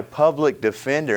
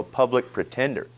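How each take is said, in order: First: Said in the usual way. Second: "pretender" said in place of "defender", a light jab; mocking nickname. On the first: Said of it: "call him a public pretender". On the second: Shown as a demonstration. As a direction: swap in "pretender" with a sneer. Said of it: "disrespect that man and call him a public pretender".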